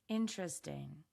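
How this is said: It is said with a hesitant tone. "Now say it with hesitation"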